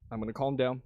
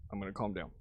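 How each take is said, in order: First: Softer, settling himself; calming down. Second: Much lower and much softer, almost to himself; deep, hushed self-soothing murmur; calming down. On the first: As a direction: talk himself down quietly. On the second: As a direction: pull the voice right down to calm himself. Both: Real, not acted.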